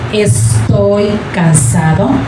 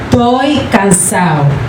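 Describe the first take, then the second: First: Every sound of the phrase is fully pronounced. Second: Some sounds of the phrase are dropped. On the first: "Instead of saying" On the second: "you may hear"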